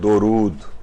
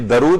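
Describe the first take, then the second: First: The first vowel is a short 'u' sound. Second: The first vowel is a short 'a' sound. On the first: The speaker calls it right. "दाल के ऊपर पेश है" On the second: The speaker calls it wrong. "ये दरूद नहीं है"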